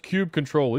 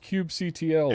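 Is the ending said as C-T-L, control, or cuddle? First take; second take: control; C-T-L. First: The ending is said as the word control. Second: The ending is spelled out as letters C-T-L. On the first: "The people that get all up in arms about it" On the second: "The people that get all up in arms about it"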